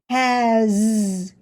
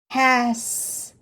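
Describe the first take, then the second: First: The final sound is a buzzing Z. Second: The final sound is a hissing S. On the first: "In this word, the S sounds like a Z" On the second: "Say it a little faster to try to hear the word"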